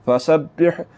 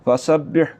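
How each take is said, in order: No difference in how they are said.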